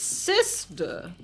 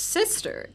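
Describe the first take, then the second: First: It is said with sassy drag queen flair. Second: It is said plainly and flatly.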